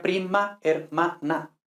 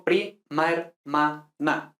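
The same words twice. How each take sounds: First: "prima hermana" with a and e apart, pri-ma-er-ma-na; theoretical separate syllables. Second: "prima hermana" in slow syllables, a and e merged as pri-maer-ma-na; syllables run together. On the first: Teacher shows the theoretical form, every vowel separate. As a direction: break "prima hermana" into five syllables, MA then ER. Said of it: "Teóricamente sería prima hermana". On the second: Teacher shows synalepha to students, syllables merged. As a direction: split "prima hermana" slowly but glide MA-ER as one syllable. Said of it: "Y yo digo prima hermana".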